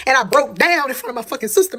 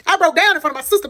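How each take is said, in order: First: Said in the usual way. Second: Higher, tearful voice cracking on the words; voice breaking. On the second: Real, not acted. Telling viewers how she broke down, voice cracking. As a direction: let the memory choke you up.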